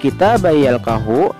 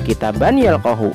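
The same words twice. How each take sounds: First: The n merges into the following y sound. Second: The n is pronounced separately before the y. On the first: The speaker calls it right. "Membacanya harus kitaban yalqahu" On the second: The speaker calls it wrong. "tidak boleh dibaca kitaban yalqahu"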